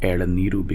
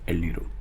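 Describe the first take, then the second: First: The middle vowel is pronounced in full. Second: The middle vowel is dropped entirely. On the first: "Vowels in the middle are sometimes dropped" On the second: "becomes el niru"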